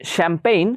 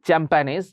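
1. শব্দটি নরম 'sh' ধ্বনি দিয়ে শুরু হয়। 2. শব্দটি কড়া 'ch' ধ্বনি দিয়ে শুরু হয়। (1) "শ্যাম্পেইন এটা ফ্রেঞ্চ ওয়ার্ড" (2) "এটা কেউ আবার উচ্চারণ করবে না চ্যাম্প্যানেজ"

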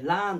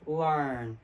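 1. Rの音はほぼ完全に消えます。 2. Rは舌を引っ込めて発音します。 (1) "イギリス英語になるとほとんどR って消える" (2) "巻くというか舌を引っ込める感じです"

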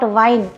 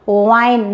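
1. पहली ध्वनि में निचला होंठ दाँतों से लगता है। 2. पहली ध्वनि गोल होंठों से बनती है। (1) "not wine" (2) "you have to round your lips and pronounce"

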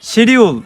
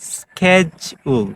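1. এটি shee-dyool হিসেবে বলা হয়। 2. এটি skeh-jool হিসেবে বলা হয়। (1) "আমরা যেভাবে প্রনাউন্সিয়েশন করি শিডিউল, এটা কিন্তু কারেক্ট না" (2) "আমেরিকান অ্যাকসেন্টে এটা হয় স্কেজুল"

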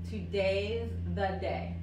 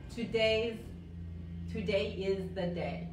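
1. La palabra 'is' se contrae en 'today'. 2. La palabra 'is' se dice como una sílaba completa. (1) "muchas veces hablando, abreviamos" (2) "en vez de decir today is the day"

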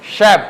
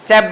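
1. শব্দটি sh ধ্বনি দিয়ে শুরু হয়। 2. শব্দটি ch ধ্বনি দিয়ে শুরু হয়। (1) "সিএইচ ইকুয়াল স উচ্চারণ করব" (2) "চ্যাপ বললে হবে না"

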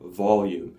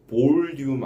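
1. 첫 모음은 'uh' 소리가 나요. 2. 첫 모음은 'oh' 소리가 나요. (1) "어예요" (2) "그것도 볼륨 아니에요. 앞에 있는 모음은 오 소리 아니에요"

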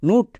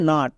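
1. স্বরধ্বনিটি একটি গোলাকার 'oo' ধ্বনি। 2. স্বরধ্বনিটি একটি খোলা 'uh' ধ্বনি। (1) "না" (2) "এর উচ্চারণ হবে নাট"

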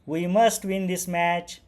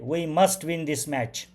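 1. ही ओळ आनंदी पद्धतीने म्हटली आहे. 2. ही ओळ आत्मविश्वासपूर्ण पद्धतीने म्हटली आहे. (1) "हॅपी आनंदाने" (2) "कॉन्फिडंट स्वरूपामध्ये"

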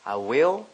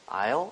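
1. 두 단어 모두 완전하게 발음해요. 두 음절이에요. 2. 한 음절로 줄어들고 L로 끝나요. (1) "I will 그냥 하시면 돼요" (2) "영어권에서도 I'll 이렇게 하시는 경우가 더 많죠"

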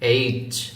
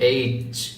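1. লেটারের নামটি শক্ত ও জোরে বলা হয়। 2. লেটারের নামটি শক্ত ও জোরে বলা হয়।

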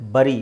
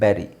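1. ಮೊದಲ ಸ್ವರ 'uh' ತರ ಕೇಳಿಸುತ್ತೆ. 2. ಮೊದಲ ಸ್ವರ 'eh' ತರ ಕೇಳಿಸುತ್ತೆ. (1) "ಆ್ಯಕ್ಚುಲಿ ಇದು ಬರಿ ಅಲ್ಲ" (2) "ಆ್ಯಕ್ಚುಲಿ ಅದರ ಉಚ್ಚಾರಣೆ ಬಂದು ಬೆರಿ"

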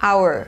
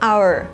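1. คำนี้มีเสียง R ตอนท้ายเบาๆ แบบม้วนลิ้นนิดหน่อย 2. คำนี้มีเสียง R ตอนท้ายเบาๆ แบบม้วนลิ้นนิดหน่อย

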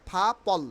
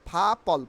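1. এটি একটি নিঃশ্বাসযুক্ত, aspirated p ধ্বনি দিয়ে শুরু হয়। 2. এটি একটি নিঃশ্বাসযুক্ত, অ্যাসপিরেটেড p ধ্বনি দিয়ে শুরু হয়।

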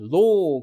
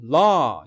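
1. 영국식 억양으로 발음했어요. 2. 미국식 억양으로 발음했어요. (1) "영국식은 law" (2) "미국식은 law"

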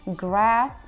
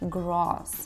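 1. Гласный — плоский, передний звук 'a'. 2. Гласный — широкий, открытый звук 'ah'. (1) "В Америке это будет через Э" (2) "в Британии, в Австралии это через А"

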